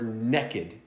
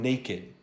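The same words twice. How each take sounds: First: The word is said with a colloquial variant pronunciation. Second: The word is said with its standard pronunciation.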